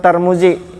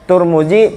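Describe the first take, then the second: First: The first syllable has the vowel a. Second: The first syllable has the vowel u. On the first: "Tiga macam tuh dibaca" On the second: "Tiga macam tuh dibaca"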